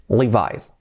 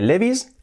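First: Levi's as "LEE-vise"; English "li-VAIS" for Levi's; English pronunciation. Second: Said in the usual way. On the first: Shown as a demonstration. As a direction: say Levi's with a final "eye" sound. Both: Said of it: "Nada de Levi's".

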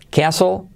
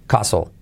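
First: "Qué aso" as KE-a-so, higher; first accepted variant. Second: "Caso" with a pure A, low and falling; second accepted variant. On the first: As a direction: raise "Qué aso" with an E glide before the A. ("Qué aso" con e y tono alto) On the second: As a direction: drop the pitch on "Caso", no glide. ("Caso" con a limpia y tono bajo) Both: Shown as a demonstration. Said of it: "Las dos valen".

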